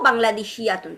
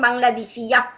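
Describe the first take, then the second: First: The word ends with a full 'tun' ending. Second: The word ends with a short 'ah' sound. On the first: The word continues into the rest of the sentence. "তামার বুতা বাংলাদেশি ইয়াতুন" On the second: The speaker stops at the end of the word. "আমরা তখন বলতাম বাংলাদেশি ইয়া। থামতে"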